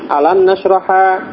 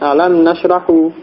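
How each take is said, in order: First: The last word ends with a short a vowel. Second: The last word ends with a short u vowel. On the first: "dengan fathah huruf akhirnya, khata'un, salah" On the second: "khata'un, keliru, salah"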